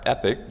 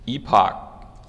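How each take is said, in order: First: "epoch" with a short E, rhyming with "epic"; short-E pronunciation. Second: "epoch" with a long E and a clear "pock" ending; long-E pronunciation. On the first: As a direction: say epoch as EP-ick. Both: Shown as a demonstration. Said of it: "depending on how you want to say it".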